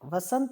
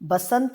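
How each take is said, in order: First: The word begins with a 'v' sound. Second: The word begins with a 'b' sound. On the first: The speaker calls it right. "वसंत होता है" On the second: The speaker calls it wrong. "गलत है"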